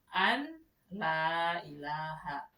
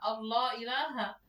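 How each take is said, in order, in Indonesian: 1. Awalnya dibaca terpisah sebagai an la. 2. Awalnya dibaca seperti kata Allah. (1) "Padahal di situ an la ilaha, bukan Allah" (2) "dibacanya Allah ilaha"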